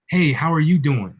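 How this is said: It sounds warm and sincere.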